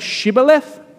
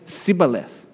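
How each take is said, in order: First: The word begins with a 'sh' sound. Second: The word begins with an 's' sound. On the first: "instead of saying Shibboleth" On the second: "they say Sibboleth"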